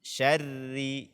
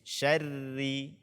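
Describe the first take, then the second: First: The sh and r are pronounced thin and light. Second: The same.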